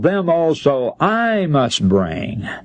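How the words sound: The word I carries strong emphasis.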